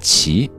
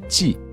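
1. “骑”字读 qi。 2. “骑”字读 ji。

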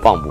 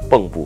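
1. 第一个音节读 bang。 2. 第一个音节读 beng。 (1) "不是蚌埠回旋" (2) "应该是蚌埠回旋"

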